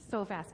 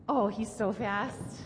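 First: Said in the usual way. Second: Playful amazement. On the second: Real, not acted.

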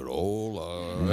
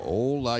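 First: Very low, drawn-out mock greeting; child mimicking hello. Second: Said in the usual way. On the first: Father retelling his children copying the catchphrase, deep drawled hello. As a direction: drag the hello out in a deep put-on voice. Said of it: "y hace". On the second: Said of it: "Yo le digo".

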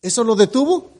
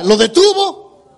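First: Said in the usual way. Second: "detuvo" stretched out, much higher and slower; preacher presses the congregation, "detuvo" pitched up and slow; pressing question. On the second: Shown as a demonstration. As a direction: lean hard on "¿lo detuvo?" to demand a true answer. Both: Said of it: "Diga la verdad".

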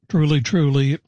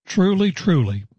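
First: Said in the usual way. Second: Both TRULY lifted high with strong emphasis; "Truly, truly" said raised and insistent; emphatic. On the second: Shown as a demonstration. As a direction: ring out "Truly, truly" like a solemn oath. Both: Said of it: "It's very emphatic".

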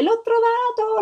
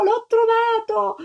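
First: High, shrill-free excited shout of discovery; joyful cry. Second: High, slow, stretched shout of triumph; drawn-out joyful cry. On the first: Little girl to everyone, shouting she found the egg. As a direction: cry out the find in pure delight. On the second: Little girl repeating her find, slowly crying out. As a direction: hold the cry out, savouring it. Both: A narrator's reading. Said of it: "si mise a gridare".

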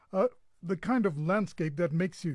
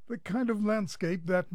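First: Speaking with hiccups; talking through hiccups. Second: Said in the usual way. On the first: Real, not acted. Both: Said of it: "I think I've got the hiccups".

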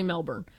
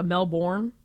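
First: Melbourne said "Mel-bern", the second syllable reduced; quick, confident Melbourne with a weak ending. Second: Melbourne as "Mel-born", full R, stressed second syllable; American Melbourne. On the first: Texan co-host giving her pronunciation, Melbourne said "Mel-bern". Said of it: "it's definitely Melbourne". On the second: Texan co-host rejecting a pronunciation, Melbourne as "Mel-born". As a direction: say Melbourne the way she doesn't. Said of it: "I don't even say". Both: Shown as a demonstration.

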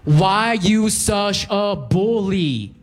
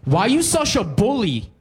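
First: Put-on high, slow, drawn-out girl's voice; accusing girl. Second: Put-on high, accusing girl's voice; angry girl. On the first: Cashier girl accusing the customer, high and drawn out. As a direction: stretch it out, offended and high. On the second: Cashier girl accusing the customer, high and indignant. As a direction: snap it at him like a cashier girl. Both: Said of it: "looks up at me angrily and goes".

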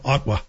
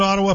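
First: "Ottawa" cut to two syllables, "Ot-wa"; dropped vowel in Ottawa. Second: Said in the usual way. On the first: Shown as a demonstration. Host demonstrates how locals drop a vowel, "Ottawa" as "Ot-wa". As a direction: leave the middle vowel out of "Ottawa". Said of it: "people leave out that extra vowel".

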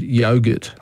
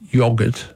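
First: "yogurt" with long O, YOH-gurt; own pronunciation of yogurt. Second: "yogurt" with short O, YOG-urt; English pronunciation of yogurt. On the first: Host quoting his side of the argument, long-O yogurt. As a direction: say "yogurt" to start like "yo". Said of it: "and I said yogurt". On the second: Host quoting an English person, short-O yogurt. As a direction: say "yogurt" to start like "yog" in "dog". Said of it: "and she said yogurt". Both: Retold or imitated.

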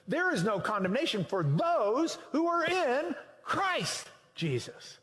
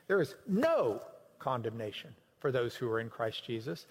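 First: "There" hit hard, the whole phrase pushed higher and stressed word by word; emphasized. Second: Said in the usual way. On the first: Shown as a demonstration. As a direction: preach it, leaning on "There" and each key word. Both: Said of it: "emphasize any words you want on that".

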